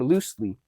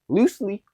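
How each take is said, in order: First: The word is said in a plain way. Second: The word is said in a playful, funny way. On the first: "I say a word" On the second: "repeat it, but in a funnier way"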